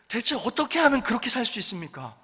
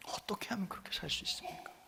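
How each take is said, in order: First: Said in the usual way. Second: Whispered, awed question. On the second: Retold or imitated. Jailer asking how they could live so, hushed whisper. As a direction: breathe the question in wonder.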